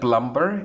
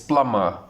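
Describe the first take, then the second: First: The b sound is pronounced. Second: The b sound is silent. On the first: The speaker calls it wrong. "We say that plumber" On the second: The speaker calls it right. "it is plumber. B is silent"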